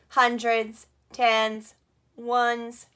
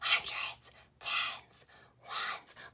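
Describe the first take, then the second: First: The words are spoken in a flat robot voice. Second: The words are spoken in a whisper. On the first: "Let's be a robot. Can you do a robot voice?" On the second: "we're gonna whisper it like a secret to somebody"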